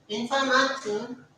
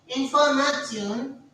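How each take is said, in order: No difference in how they are said.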